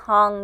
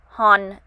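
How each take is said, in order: First: Southern accent, with a g-like sound added at the end. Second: Northern accent, ending without the added g sound. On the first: "in a southern dialect or southern accent ... I kind of add a G at the end" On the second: "learn the northern dialect or northern accent because they enunciate the letters"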